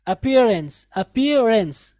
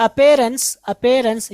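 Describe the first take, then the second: First: अपीयरेंस with "peer" in the middle; correct pronunciation. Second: अपीयरेंस as "a-pay-rance"; mistaken pronunciation. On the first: Teacher drills the correction, अपीयरेंस with an "ee". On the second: Teacher quotes the wrong reading, अपीयरेंस as "apayrance". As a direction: put an "ay" vowel in अपीयरेंस. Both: Shown as a demonstration. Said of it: "ये गलत है".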